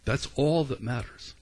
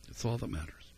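First: "all" leaned on, then a falling close; voicing Paul, press "all" and let it fall; stress on all. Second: Quiet echo. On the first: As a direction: land hard on "all" in "That's all that matters". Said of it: "And Paul said". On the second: Real, not acted. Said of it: "quiet echo of the quote".

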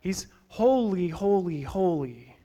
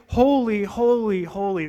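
First: Each holy slow and falling, fading on the last; holy, holy, holy said slowly, dying away in awe; threefold holy. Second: Preacher declaring holy, holy, holy to the congregation; emphatic threefold holy. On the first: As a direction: lean on every holy, letting the voice sink. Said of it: "And he's not just holy". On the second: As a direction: proclaim each holy, building from a ringing start. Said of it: "when they want to emphasize something". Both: Shown as a demonstration.

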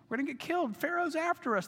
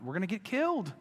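First: The fear breaks upward into a shrill-free high plea; mock panic. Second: A touch of panic, slightly higher; mock panic. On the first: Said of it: "They are in a panic". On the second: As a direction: start the alarm understated. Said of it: "crying out".

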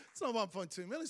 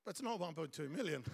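First: Said through a laugh. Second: Said in the usual way. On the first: Real, not acted. Pastor laughing at the shortfall, laughing. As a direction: let the laugh run through the words.

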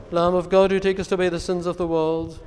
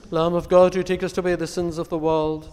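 Both takes have the same delivery.

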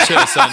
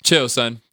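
First: High loud yell. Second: Said in the usual way. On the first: Real, not acted. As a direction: yell CHILL much higher and louder, son falling.

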